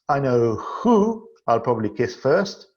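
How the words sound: The stress is on the word who. Among various options, there is one main target. "In the third sentence"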